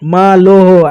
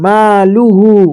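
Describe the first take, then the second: First: The vowel after the l sounds like o. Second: The vowel after the l sounds like u. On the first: The speaker calls it wrong. "আমরা অনেকজন পড়ি লোহ, কিন্তু এটা মাজিল হয়ে যাচ্ছে" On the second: The speaker calls it right. "এই জায়গায় মারুফ পড়তে হবে"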